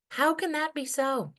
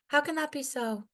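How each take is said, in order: First: Sharp question. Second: Pitched-up pained question; sharp question. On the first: Poem's rhetorical question. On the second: Poet closing her poem with a pained rhetorical question. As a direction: ask it high and aching. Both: Acted.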